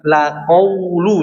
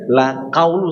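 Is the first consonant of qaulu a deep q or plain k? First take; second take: deep q; plain k. First: The word begins with a deep throat q sound. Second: The word begins with a plain front k sound. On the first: The speaker calls it right. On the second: The speaker calls it wrong.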